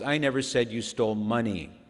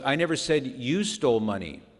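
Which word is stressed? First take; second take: money; you. First: The stress is on the word money. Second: The stress is on the word you.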